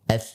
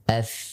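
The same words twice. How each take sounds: First: The consonant sound is stopped abruptly. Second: The consonant sound flows on continuously. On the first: The speaker calls it wrong. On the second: The speaker calls it right. "Dia akan mengalir"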